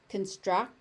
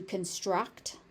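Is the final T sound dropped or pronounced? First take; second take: dropped; pronounced. First: The final T sound is left off. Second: The final T sound is clearly pronounced. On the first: "that final T not being pronounced" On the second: "as opposed to"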